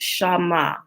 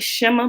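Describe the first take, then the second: First: The first syllable has an open 'ah' vowel. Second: The first syllable has a short 'eh' vowel. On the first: This is the proper pronunciation. The speaker calls it right. "it's actually pronounced Shama" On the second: This is the common way people say it. The speaker calls it wrong. "we call it Shema"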